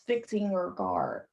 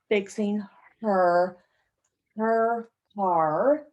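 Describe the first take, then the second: First: The h is dropped and the words run together. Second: The h in 'her' is clearly pronounced. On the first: "It's kind of a whole squished together" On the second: "listen carefully to the way I pronounce this"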